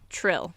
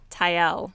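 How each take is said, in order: First: The name begins with a tr sound. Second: The name begins with a plain t sound. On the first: This is how the name is really pronounced. The speaker calls it right. "but Trill" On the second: This is how it was read silently before. The speaker calls it wrong. "I used to just say like in my head Tyel"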